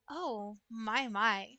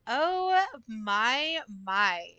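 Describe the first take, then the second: First: A soft, teasing "oh, my, my". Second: High-pitched, breathy-free "Oh" leaping up, then "my, my" dropping back down; high sultry oh my. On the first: Chat asked for it soft, so she says it hushed. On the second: Streamer performing for chat, squeaking the Oh high. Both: Pretend. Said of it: "It's not soft".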